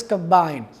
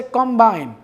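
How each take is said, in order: First: ComBINE with the second syllable stressed; short weak com, lean on BINE in combine. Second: COMbine with the first syllable stressed; full, clear COM at the start of combine. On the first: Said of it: "stress is on the second syllable". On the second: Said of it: "stress is on the first syllable". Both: Shown as a demonstration.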